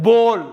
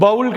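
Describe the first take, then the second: First: "போல்" with a long round "o"; correct pronunciation. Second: "பவுல்" with an "ow" diphthong; wrong pronunciation. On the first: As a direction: say "போல்" as a firm "bohl". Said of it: "பவுல் கிடையாது, போல்". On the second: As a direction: say "பவுல்" to rhyme with "howl". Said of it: "பவுல் கிடையாது". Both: Shown as a demonstration.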